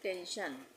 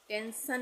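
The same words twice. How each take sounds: First: The middle consonant is an sh sound. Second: The middle consonant is a plain s sound. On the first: The speaker calls it right. "इसको हम बोलते हैं" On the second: The speaker calls it wrong. "टेंशन नहीं बोलते हैं"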